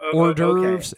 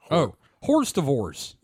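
First: It is said in the usual French-derived way. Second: Every letter is sounded as it looks written. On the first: The speaker calls it right. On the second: The speaker calls it wrong.

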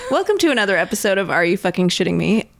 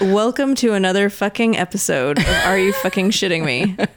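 First: It is said with more enthusiasm. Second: It is said with little enthusiasm.

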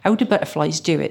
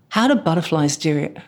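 First: It is said in a Bristolian accent. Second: It is said in the speaker's usual accent. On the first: "it would have been in a Bristolian accent" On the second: "That's how we asked it"

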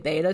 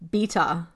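First: The word is said in an American accent. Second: The word is said in a British accent. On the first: "as we say beta test" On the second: "they pronounced the beta"

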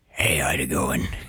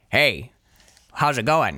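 First: The voice is deep and gravelly. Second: The voice is lighter, not very gravelly.

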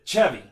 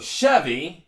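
First: It is said with a Mexican Spanish accent. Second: It is said with an English accent.

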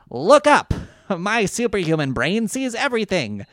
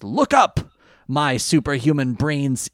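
First: It is in the character's put-on voice. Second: It is not in the character's voice.

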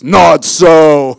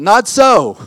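First: It is said in a deep, booming God voice. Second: It is said in a normal speaking voice.

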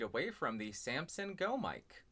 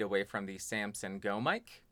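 First: The voice is about four feet away. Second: The voice is about two feet away. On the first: "and about 4 feet away" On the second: "About 2 feet away"

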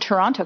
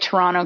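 First: The second T is clearly pronounced. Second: The second T is dropped. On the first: The name is adapted for outsiders. "I pronounced it not like someone from Toronto would say it" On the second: This is how locals say the name. "normally I would say Toronto"

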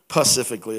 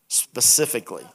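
First: The word begins without the s sound. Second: The word begins with an s sound. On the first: The speaker calls it wrong. "Pacifically is what I used to say. Like the Pacific Ocean" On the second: The speaker calls it right. "Did I say that right?"

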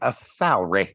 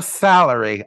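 First: Salary is said with two syllables. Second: Salary is said with three syllables. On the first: "Two syllables" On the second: "Not a salary"

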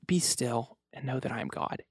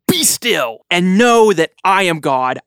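First: It is said in a soft, gentle tone. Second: It is said in a stern, commanding tone.

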